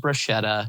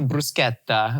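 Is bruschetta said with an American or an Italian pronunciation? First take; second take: American; Italian. First: The word is said with an American English pronunciation. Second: The word is said with an Italian pronunciation. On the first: "as opposed to" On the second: "that is how you pronounce those words"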